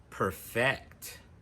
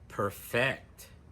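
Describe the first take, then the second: The two takes are said the same way.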